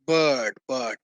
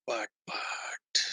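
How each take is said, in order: First: Said in the usual way. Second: Whispered, much softer but, but. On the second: Real, not acted. Teacher teasing a hidden catch to students, soft whisper. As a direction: drop to a secretive whisper on but, but.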